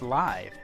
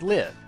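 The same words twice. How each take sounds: First: The vowel is long, rhyming with five. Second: The vowel is short, rhyming with give. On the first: It is the word as in alive. "as in alive" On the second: It is the verb meaning the opposite of die. "since it makes sense to me to think of it as the opposite of die"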